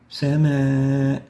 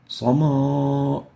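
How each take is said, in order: First: The word sounds light and thin. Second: The word sounds heavy and emphatic. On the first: The speaker calls it right. "attenuated with no tafkhim" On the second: The speaker calls it wrong. "We don't say"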